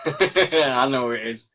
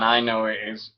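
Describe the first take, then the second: First: Slow, amused, laughing through I know who it is; laughing knowingly. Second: Said in the usual way. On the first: Real, not acted. Teasing a fan in chat, laughing.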